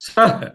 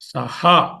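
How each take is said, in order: First: It ends with a light breath, no vowel. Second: It ends with a full 'ha' syllable. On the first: The speaker calls it right. "సహ్ అనమాట యాక్చువల్గా" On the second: The speaker calls it wrong. "అలా ఉండకూడదు"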